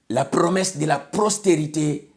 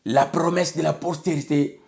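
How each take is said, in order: Both takes have the same delivery.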